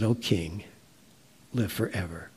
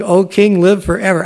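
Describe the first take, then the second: First: "O king, live forever" said lower and much softer; a gentle, lightly played greeting from below; cheerful voice. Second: "O king, live forever" called out louder and higher; a lightly played, glad call up to the king; cheerful greeting. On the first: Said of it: "it was a cheerful voice". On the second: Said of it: "Daniel said to the king".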